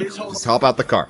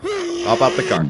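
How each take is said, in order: First: Said in the usual way. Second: High, drawn-out plea. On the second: Real, not acted.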